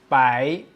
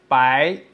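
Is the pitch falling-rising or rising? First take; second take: rising; rising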